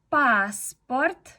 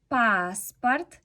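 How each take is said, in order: Both takes have the same delivery.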